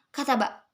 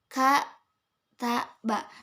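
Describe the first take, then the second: First: The syllables run together with no pauses. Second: Short pauses separate each of the three syllables. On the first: The listener cannot tell it has three letters. The speaker calls it wrong. "kalau memang kita bacanya tanpa jeda" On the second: It shows that the word has three letters. The speaker calls it right. "setelah ka kita diam dulu"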